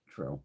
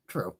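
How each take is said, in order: First: A quiet murmured True; low quiet echo. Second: Said in the usual way. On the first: Real, not acted. Agreeing with a chat comment, then echoing it in a low murmur. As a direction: drop it low and soft, said to herself.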